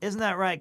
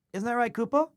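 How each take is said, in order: First: Said in the usual way. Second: Cooing pet talk. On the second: Real, not acted. Owner cooing to his cat Kupo on stream, sing-song baby talk. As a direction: coo it to the kitten.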